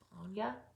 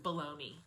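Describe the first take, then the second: First: It is said with an Italian-style pronunciation. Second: It is said with an American pronunciation. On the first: The speaker calls it right. "I know that's not how you say it" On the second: The speaker calls it wrong. "we say it in America is bologna"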